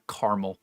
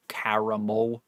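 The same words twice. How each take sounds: First: "caramel" as CAR-mul; low "caramel" in two syllables, CAR-mul; rejected pronunciation. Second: "caramel" slowly as CARE-uh-mole; slow "caramel", round MOLE ending; tolerated variant. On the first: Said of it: "it's not caramel". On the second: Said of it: "I don't really care". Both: Shown as a demonstration.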